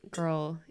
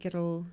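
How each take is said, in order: First: Said in the usual way. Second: Put-on "Girl" said as "giddle", two syllables; Glasgow pronunciation. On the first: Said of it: "I think I would say girl". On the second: Shown as a demonstration. Comparing two ways, "Girl" said "giddle". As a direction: tap the middle of "Girl": "giddle". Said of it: "the best Scottish word".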